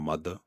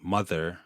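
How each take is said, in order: First: The final R sound is dropped. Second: The final R sound is pronounced.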